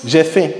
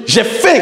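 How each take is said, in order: First: Said in the usual way. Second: High, rising "J'ai faim!"; emphatic intonation. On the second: Shown as a demonstration. Teacher showing intonation to a class, emphatic exclamation. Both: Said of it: "Vous voyez que c'est pas pareil".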